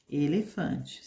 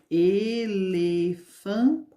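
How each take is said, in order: First: Said in the usual way. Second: Elefante drawn out very slowly, each syllable split; slow syllable demo. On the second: Shown as a demonstration. Teacher to children breaking elefante into syllables. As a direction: count the syllables with your voice. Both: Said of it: "Então, tem quatro sílabas".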